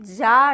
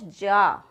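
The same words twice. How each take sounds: First: "जा" pronounced za with a buzz; buzzed z sound. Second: "जा" as ja, slow and lower; hard j in "जा", drawn out; plain j sound. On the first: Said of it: "not जा". ("जा" को ज़ा बोलें) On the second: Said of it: "इसको जा नहीं बोलेंगे". ("जा" को सीधे ज से जा) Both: Shown as a demonstration.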